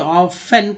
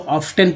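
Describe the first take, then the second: First: The word is said without a t sound. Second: The word is said with a t sound. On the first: The speaker calls it right. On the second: The speaker calls it wrong.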